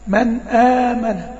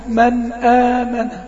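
Both takes have the same delivery.

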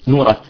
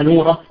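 First: The name ends with a clear t sound. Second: The name ends with a soft h sound.

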